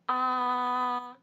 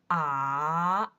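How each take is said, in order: First: The pitch stays high and level. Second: The pitch dips low and then rises. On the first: "First tone, very high" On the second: "The third tone, you'll hear the deep down at first"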